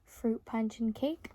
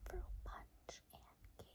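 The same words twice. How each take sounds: First: Said in the usual way. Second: Soft breathy whisper, slow. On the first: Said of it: "you say back the words I say". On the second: Shown as a demonstration. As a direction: whisper it slowly near the ear. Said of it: "and then I'm gonna go ahead and whisper".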